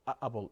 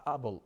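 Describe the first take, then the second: No difference in how they are said.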